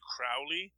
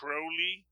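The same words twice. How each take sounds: First: The first syllable rhymes with cow. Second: The first syllable rhymes with go. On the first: The speaker calls it wrong. "as opposed to Crowley" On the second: The speaker calls it right. "that is Crowley"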